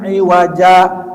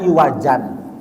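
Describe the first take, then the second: First: The word ends in a long a vowel. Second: The word ends with an n sound. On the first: The reciter stops at the end of the verse. "tetap dibaca mad" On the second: This is the original written form.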